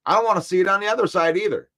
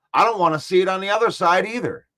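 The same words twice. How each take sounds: First: "don't" punched, the line said fast; stress on DON'T. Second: "other" leaned on, falling at the end; weight the word "other", then let it fall; stress on other. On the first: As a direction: hit "don't" hard and rattle the rest off quickly. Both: Real, not acted.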